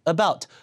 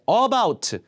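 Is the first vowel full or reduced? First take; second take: reduced; full. First: The first vowel is weak and reduced. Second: The first vowel is full and clear. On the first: The speaker calls it right. "벌써 원어민기에 딱 들어가요" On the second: The speaker calls it wrong. "잘 안 들어간다는 얘기예요"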